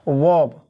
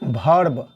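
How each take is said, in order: First: The word begins with a 'v' sound. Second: The word begins with a 'bh' sound. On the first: The speaker calls it right. "इसको हम क्या पढ़ते हैं? वर्ब" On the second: The speaker calls it wrong. "वी को भी पढ़ते हैं, इसको पढ़ते हैं भर्ब ... गलत हो जाएगा"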